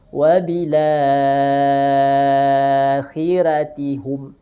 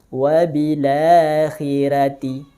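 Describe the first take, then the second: First: The vowel after la is held for six counts. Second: The vowel after la is held for two counts. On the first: "tul enam harokat" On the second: "Dengan dua harokat mad badal"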